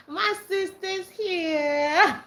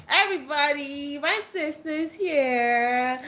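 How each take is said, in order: First: Even higher, slow, with a laughing cry; overjoyed and breaking into laughter; squealing it with tearful joy; excited laughing. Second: High, slow, drawn-out announcement; delighted sing-song announcing; excited. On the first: Repeating announcement, nearly crying laughing. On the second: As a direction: stretch it out with glee. Announcing sister joined stream. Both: Real, not acted.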